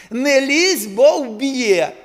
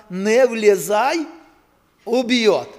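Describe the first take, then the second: First: Loud, higher warning; warning paraphrased. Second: Slow, loud sign reading; reading a warning sign. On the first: Preacher restating the sign's warning, loud and sharp. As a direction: bark the warning to the crowd. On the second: Preacher reading the pole sign to the congregation, slow and loud. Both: Retold or imitated. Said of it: "і так написано".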